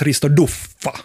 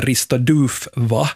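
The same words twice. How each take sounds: First: Duffa with short u and long f; prescribed pronunciation. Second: Duva with a long u, Duu-va; as spelled. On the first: Host giving coach's proper name, Duffa with short u and double f. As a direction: say Duffa, short first vowel. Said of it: "det ska sägas". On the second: Host introducing a coach's name, Duva with long Swedish u. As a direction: read Duva like the Swedish word. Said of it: "det ska sägas Risto Duffa". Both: Shown as a demonstration.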